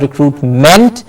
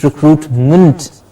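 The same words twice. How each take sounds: First: "recruitment" with a clear E in MENT; weight the ending of "recruitment"; "recruitment" as recruit-MENT; full MENT ending. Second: Slow "recruitment" with ment weakened to munt; "recruitment" as re-CRUIT-munt; reduced ending. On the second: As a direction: shrink the last vowel of "recruitment" to a schwa. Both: Shown as a demonstration. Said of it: "replacing the small er sound".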